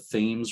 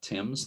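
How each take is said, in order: First: It is said the local Connecticut way. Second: It is said the way it is in England. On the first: "That is how they pronounce it there" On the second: "not Thames like in England"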